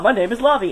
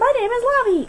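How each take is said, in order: First: It is said in a deeper voice. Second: It is said in a normal speaking voice. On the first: The speaker calls it right. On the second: The speaker calls it wrong.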